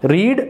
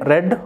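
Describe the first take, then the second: First: The vowel is a long ee sound. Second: The vowel is a short e sound. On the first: It is the present form of the verb. "Spellings ఒకేలా ఉంటాయి కానీ pronunciation అనేది డిఫరెంట్గా ఉంటుందన్నమాట" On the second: It is the past form of the verb. "Subject తర్వాత V two ఉంటే అది రెడ్ అవుతుంది"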